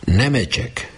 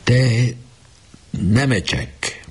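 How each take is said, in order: First: High call of the name, tears in the throat; repeating the name while fighting tears; near tears. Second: High, drawn-out trembling call of the name; a boy calling his dying captain, voice trembling. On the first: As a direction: hold back a sob as you call him. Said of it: "már a torkán volt a sírás". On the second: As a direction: call the sick friend's name with a catch in the throat. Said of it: "remegő hangon kezdte". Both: A narrator's reading.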